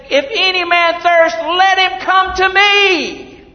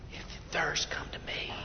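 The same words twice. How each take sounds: First: Loud, high calling cry; shouting out. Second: Soft, breathy whisper; whispered invitation. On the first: Retold or imitated. Jesus calling over the festival crowd, loud high cry. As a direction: call out to the crowd to come. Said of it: "Jesus is shouting out". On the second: Acted. Preacher quietly voicing Jesus inviting the thirsty, whisper. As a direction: whisper it like a secret call.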